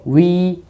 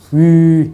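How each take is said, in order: First: The lips are not held rounded throughout. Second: The lips stay rounded for the whole vowel. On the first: This is how people usually say it. The speaker calls it wrong. "입술 둥그렇게 안 말리죠" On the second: This is the textbook single-vowel pronunciation. The speaker calls it right. "이 상태로 해야 돼. 위, 이래야 돼"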